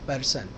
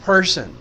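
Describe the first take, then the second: First: The first p is plain, with no breath. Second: The first p has a puff of breath. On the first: The speaker calls it wrong. "हम कहते हैं पर्सन पर्सन, प कहते हैं प" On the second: The speaker calls it right. "जबकि ये फ है, थोड़ा सा एच है इसमें"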